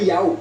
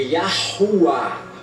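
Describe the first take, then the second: First: The name is said without an h sound. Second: The name is said with an h sound. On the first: The speaker calls it wrong. "e não é Yau" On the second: The speaker calls it right. "é Yahuwah"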